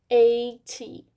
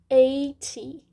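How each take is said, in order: Both takes have the same delivery.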